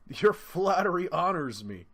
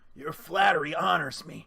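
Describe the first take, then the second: First: The voice is clear, not raspy. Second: The voice is raspy and hoarse.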